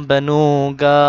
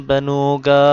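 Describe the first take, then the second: Both takes have the same delivery.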